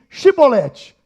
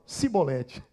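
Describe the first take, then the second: First: The word begins with a sh sound. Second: The word begins with an s sound. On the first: This is the password the guards demanded. The speaker calls it right. "então diz para mim assim" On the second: The speaker cannot pronounce the password properly. The speaker calls it wrong. "Aí ele falava"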